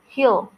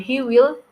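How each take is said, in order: First: Will is shortened and joined to the pronoun. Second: Will is said as a full separate word.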